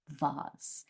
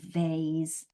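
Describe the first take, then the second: First: The word is said with a British pronunciation. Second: The word is said with an American pronunciation. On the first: "I say vase" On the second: "Americans would say vase"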